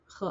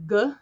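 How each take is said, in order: First: The consonant is a soft, breathy sound. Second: The consonant is a hard, stopped sound. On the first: "and then just make it softer" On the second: "like you're going to make the G sound"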